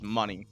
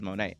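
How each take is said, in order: First: The name ends with an 'ee' sound. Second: The name ends with an 'ay' sound. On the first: The speaker calls it right. "it is money" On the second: The speaker calls it wrong. "I always pronounce it wrong. I pronounce it as Monet"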